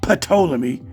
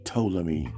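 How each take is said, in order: First: The word begins with an audible P sound. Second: The word begins with a T sound, no P. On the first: The speaker calls it wrong. "who pronounce the P" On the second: The speaker calls it right. "The P is silent"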